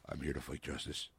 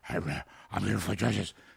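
First: It is said in a lowered, deep voice. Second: It is said in a normal voice.

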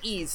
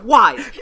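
First: The name is said like 'ease', no w. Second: The name is said like 'wise', with w. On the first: This is the official pronunciation. "I know that's the proper way to pronounce it" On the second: This is a personal preferred pronunciation. "It's Wise"

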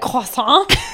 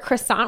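First: It is said with a French pronunciation. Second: It is said with an ordinary English pronunciation.

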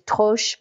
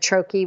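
First: It is pronounced the French way. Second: It is pronounced the American way.

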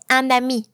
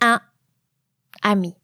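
First: The n links smoothly into ami. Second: The words are separated with a break. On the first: The speaker calls it right. "You would also not stop between the article and the noun. That's why you say" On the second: The speaker calls it wrong. "You don't say"

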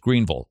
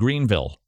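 First: The last syllable is reduced to 'ul'. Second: The last syllable has a clear 'i' vowel. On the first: The speaker calls it right. "I know it has an I, but it's an ul" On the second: The speaker calls it wrong. "I actually had to correct a Southerner the other day who said Greenville"

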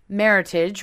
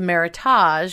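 First: The ending rhymes with the word heritage. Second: The ending does not rhyme with heritage. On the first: The speaker calls it right. "rhyming with heritage" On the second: The speaker calls it wrong. "which seems to be the way many people pronounce it"

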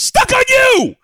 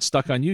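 First: The title is said in an excited voice. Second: The title is said in a flat voice. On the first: The title has an exclamation point. The speaker calls it right. "The title of the film is Stuck on You!" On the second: The title has no exclamation point. The speaker calls it wrong. "The title of the film is not Stuck on You. You're saying it wrong"

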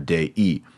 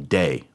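First: Both vowels are said as two syllables. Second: The vowels merge into one syllable. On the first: The speaker calls it right. "You have to say Mater Dei" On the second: The speaker calls it wrong. "You can't say day"

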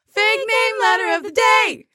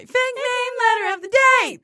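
First: It is said at her own lower pitch. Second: It is said at a higher pitch.

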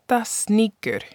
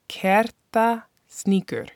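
First: The name is said at normal speed. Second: The name is said slowly.

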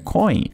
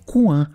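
First: It is pronounced with an English oy sound. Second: It is pronounced with a French nasal vowel. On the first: It means a piece of money. "se eles lerem em inglês, a palavra C-O-I-N se pronuncia coin" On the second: It means a corner. "se eles lerem em francês, a palavra é coin"

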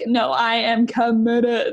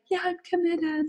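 First: It sounds firm and emphatic. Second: It sounds casual and half-hearted.

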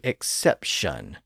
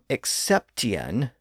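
First: The ending is one syllable with an sh sound. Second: The ending has a t sound and two syllables. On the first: This is the modern pronunciation. "that tien ending started to slur into shun" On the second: This is the older pronunciation. "that ending was originally pronounced tien"

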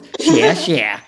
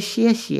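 First: It is said loudly with strong, marked tones. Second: It is said softly with flat, weak tones. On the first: The speaker calls it right. "no, it's xie xie" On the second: The speaker calls it wrong. "Can't you just say xie xie?"

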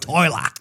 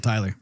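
First: The word is said in an Australian accent. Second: The word is said in a Texan accent. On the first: "to an Australian accent" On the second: "from a Texas accent"

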